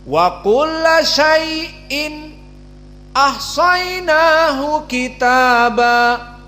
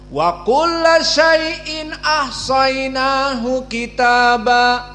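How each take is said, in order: First: Brief silent stops come before the hamza sounds. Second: The words run on without any brief stop. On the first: "Maka di sini waqaf atau sakat pada keduanya" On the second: "tidak di diamkan sakat, tapi disambung"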